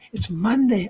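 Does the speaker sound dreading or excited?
excited. It is said with an upbeat, eager tone. The week ahead is something to look forward to. The speaker calls it right. "I get to go in and do my job"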